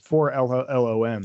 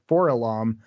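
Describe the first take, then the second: First: The name is said as four, then LOM. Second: The name is said as one word, Forlom. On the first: The speaker calls it right. "but no, it's 4LOM" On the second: The speaker calls it wrong. "instead of saying Forlom"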